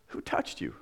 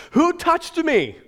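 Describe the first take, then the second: First: Lower, softer, whispered echo; incredulous whisper. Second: High, loud, slow question to the crowd; calling out. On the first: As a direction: hush it out in disbelief. Preacher echoes the question. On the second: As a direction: call out over the crowd. Jesus asks in the crowd. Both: Retold or imitated.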